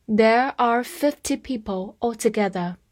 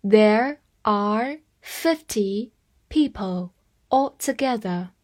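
First: Said in the usual way. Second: Slow, careful sentence reading. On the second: Shown as a demonstration. Teacher reading slowly for students to repeat. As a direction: read it slowly so learners can follow. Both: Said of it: "我慢慢来读".

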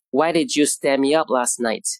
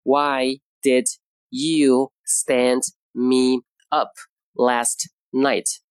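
First: Said in the usual way. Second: Very slow, each word drawn out for learners; slow model sentence. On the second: Shown as a demonstration. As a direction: spell it out slowly like a teacher. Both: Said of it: "Today's expression is".

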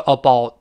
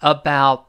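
First: "about" with vowel like Chinese "包"; wrong flattened about. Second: "About" with open "ow" kept in full; full diphthong about. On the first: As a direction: say "about" as a-BAO, diphthong reduced. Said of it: "不是肉包子的包". ("about"读成肉包子的"包") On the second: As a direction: say "About" slowly, a-BOWT. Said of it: "中间一样是双元音". ("About"双元音不弱化) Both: Shown as a demonstration.

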